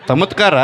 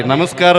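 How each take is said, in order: First: ತಮತ್ಕಾರ with t for n and s, higher; echoed mispronunciation. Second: Said in the usual way. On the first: Retold or imitated. Director repeats candidate's greeting, lisped ತಮತ್ಕಾರ. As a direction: echo ತಮತ್ಕಾರ as a puzzled question. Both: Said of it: "ನಮಸ್ಕಾರ ಅದು".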